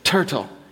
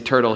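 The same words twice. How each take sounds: First: Pronounced imperfectly, imitating a small child. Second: Pronounced clearly, the ordinary adult way. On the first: "He says turtle" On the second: "I say turtle"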